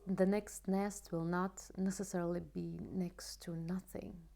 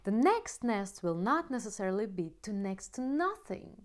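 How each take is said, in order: First: The voice is quiet, sad and less clear. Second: The voice is light, loud and bright. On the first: The speaker feels sad and guilty. "guilty sounds like this" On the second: The speaker feels hopeful and positive. "when I speak with optimistic voice, the voice is, the sound of the voice is lighter, is louder"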